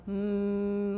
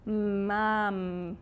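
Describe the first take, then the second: First: "Mum" stretched long, each sound held; stretched-out word. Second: "Mum" said quicker, sounds still linked; faster blend. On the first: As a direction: draw out "Mum" slowly sound by sound. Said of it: "I can elongate all the sounds". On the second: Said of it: "you make it a bit faster". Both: Shown as a demonstration.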